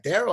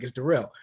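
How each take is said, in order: First: "Darrell" as DARE-ul, high and questioning; mispronounced name. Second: "Darrell" as duh-RELL; corrected name. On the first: Coach getting the player's name "Darrell" wrong, as DARE-ul. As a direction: say "Darrell" with the stress up front, DARE-ul. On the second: Player correcting coach on "Darrell", firmly duh-RELL. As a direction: stress the second syllable of "Darrell", duh-RELL. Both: Retold or imitated.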